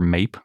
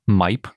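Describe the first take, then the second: First: The vowel sounds like 'ay'. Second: The vowel sounds like 'eye'. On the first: The speaker calls it wrong. "That looks a little bit more like MAPE" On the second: The speaker calls it right. "I think MIPE is slightly more accurate of a pronunciation"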